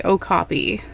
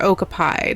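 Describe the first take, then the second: First: Said in the usual way. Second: Okapi with the last syllable rhyming with "pie"; alternative pronunciation. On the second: Shown as a demonstration. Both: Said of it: "depending on how you like to say it".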